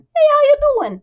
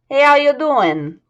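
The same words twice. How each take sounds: First: It is said in a slightly higher voice. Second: It is said in a lower, normal voice.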